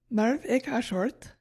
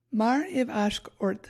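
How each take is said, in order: First: "Marv ik ashort", slowly with a wrong "ik" in the middle; mispronounced Gaelic. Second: "Mar iv ashk ort", slow and careful, word by word; corrected Gaelic pronunciation. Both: Shown as a demonstration. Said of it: "Actually, I said that wrong".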